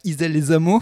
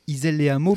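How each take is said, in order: First: Les and Hameaux are joined with a z link. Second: Les and Hameaux are said without a z link. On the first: The speaker calls it wrong. "pas Isel-les-Hameaux" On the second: The speaker calls it right. "il n'y a pas de liaison, il y a le H"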